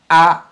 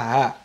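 First: The syllable starts with a glottal stop. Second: The syllable starts with a breathy h sound. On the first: The speaker calls it right. "Now listen to me" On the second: The speaker calls it wrong. "Many people pronounce the hamza as ha. That's wrong"

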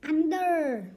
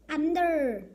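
No difference in how they are said.

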